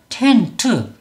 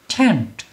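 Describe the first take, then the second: First: The word is said in two syllables. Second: The word is said in one syllable. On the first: The speaker calls it wrong. "한글처럼 소리를 내면 텐트" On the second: The speaker calls it right. "영어 발음은 텐트가 아니라 텐, 텐트, 텐트 이렇게 소리를 내야"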